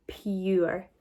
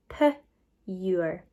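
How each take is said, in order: First: Said in the usual way. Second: PURE split into p, pause, ure; sounded out. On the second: Shown as a demonstration. Teacher sounding out together with pupils, PURE broken into p and ure. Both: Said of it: "if we sound it out together".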